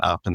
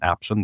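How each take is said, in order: First: Option with the usual short o, like ahp-shun; plain option. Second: Option said as aption, with a flat a like in apple. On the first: Guest spelling out his company name, plain option. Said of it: "Aption is like option". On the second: Guest spelling out his company name, aption with an A. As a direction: option starting with the a of cat, aption. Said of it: "but with an A at the front". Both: Shown as a demonstration.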